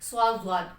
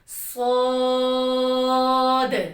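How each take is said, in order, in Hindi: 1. आख़िरी d की आवाज़ साफ़ सुनाई नहीं देती। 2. यह भारी और लंबी है, साफ़ d पर खत्म होती है। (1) "दाल की आवाज़ ही नहीं आती, ये साउंड इसकी गलत है।" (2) "मोटा करके पढ़ना और लंबा करके पढ़ना है।"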